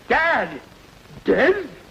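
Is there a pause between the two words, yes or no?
yes. There is a pause between the two words.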